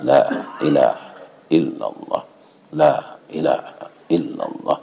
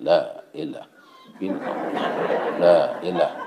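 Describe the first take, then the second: First: Low, measured recitation of dhikr; tahlil recitation. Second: Low, softening dhikr, trailing away; tahlil recitation. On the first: Congregant at tahlil after dawn prayer, low measured chanting. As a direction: recite it low, in short separated phrases. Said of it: "Sedang tahlil". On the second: Congregant at tahlil distracted by goat curry aroma, fading chant. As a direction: let the chant fade as attention drifts. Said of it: "ko tahlil la". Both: Acted.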